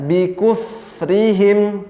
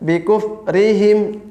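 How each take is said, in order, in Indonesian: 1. Udara pada konsonan mengalir keluar sepenuhnya. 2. Udara pada konsonan ditahan. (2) "jangan eh, misalnya"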